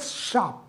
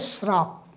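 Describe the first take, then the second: First: The word begins with a plain 'sh' sound. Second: The word begins with an 'shr' cluster. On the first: The speaker calls it right. "It's a शाप" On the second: The speaker calls it wrong. "हम लोग बोलते श्राप, not श्राप"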